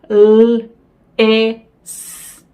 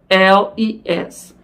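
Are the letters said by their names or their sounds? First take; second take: sounds; names. First: Each letter is said as its phonetic sound. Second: Each letter is said by its alphabet name. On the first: This is how children are taught to read. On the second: This is how adults spell a word.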